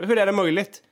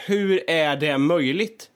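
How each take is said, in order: First: Higher, quicker "hur är det möjligt?" in exasperation; exasperated self-talk. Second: Slow, drawn-out "hur är det möjligt?", rising at the end; slow self-talk. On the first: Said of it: "säga till mig själv så här". (högre, uppgivet "hur är det möjligt?") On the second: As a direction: stretch "hur är det möjligt?" out slowly in disbelief. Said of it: "jag säger så här". (långsamt, uppgivet "hur är det möjligt?") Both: Retold or imitated.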